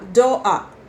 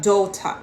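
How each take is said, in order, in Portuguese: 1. É dito com sotaque cockney, com o T omitido. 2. É dito com um sotaque britânico padrão. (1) "os Cockney vão falar doa, porque eles engolem o som do T" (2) "aqui vai falar daughter"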